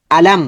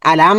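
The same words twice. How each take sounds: First: Said in the usual way. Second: "আলাম" with its m held on and on; wrongly held ghunnah. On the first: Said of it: "গুণনা হবে না". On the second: Shown as a demonstration. Teacher shows what must not be done, wrongly held m. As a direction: stretch the final m of "আলাম" into a long hum. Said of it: "দূরে রাখা যাবে না".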